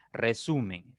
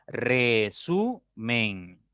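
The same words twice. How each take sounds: First: Said in the usual way. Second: "Resumen" drawn out very slowly as Re - su - men; teacher slowly sounding out each syllable of "Resumen". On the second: Shown as a demonstration. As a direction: split "Resumen." into three long, separate syllables. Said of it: "Tiene tres sílabas".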